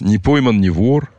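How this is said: It is said in a sad tone. Getting away with it is a sorry state of affairs. "говоришь ты с грустью"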